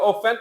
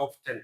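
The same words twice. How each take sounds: First: Often said as offen, no t sound; often without t. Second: Often said with a clear t, off-ten. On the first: Teacher showing students the British offen, t left silent. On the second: Teacher showing students the American off-ten with t. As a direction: sound the t in often. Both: Shown as a demonstration. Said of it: "উচ্চারণটা often নাকি often?".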